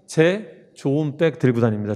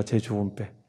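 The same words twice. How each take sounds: First: Slow mnemonic. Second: Much lower and softer, murmured 제 좋은 백; soft echo. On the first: Teacher drills mnemonic phrase. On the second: Teacher echoing mnemonic to students, hushed and low. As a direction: repeat 제 좋은 백 under your breath. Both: Shown as a demonstration.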